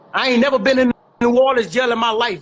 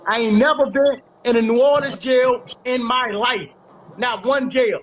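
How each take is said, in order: First: Firm, insistent denial in a single run; emphatic denial. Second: Spaced out word by word for emphasis; slow it down and land each phrase hard; deliberate emphatic denial. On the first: Speaker rebuts the rumour about New Orleans jail, emphatic denial. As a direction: run the denial out in one forceful breath. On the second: Speaker repeats the New Orleans jail denial, deliberate and emphatic. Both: Real, not acted.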